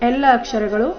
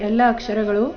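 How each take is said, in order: No difference in how they are said.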